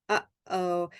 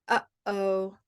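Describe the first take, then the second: Both takes have the same delivery.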